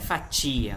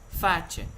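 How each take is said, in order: First: The i before the final vowel is stressed. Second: The i before the final vowel is unstressed. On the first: The speaker calls it wrong. "Não é fatia" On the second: The speaker calls it right. "o i não é tônico"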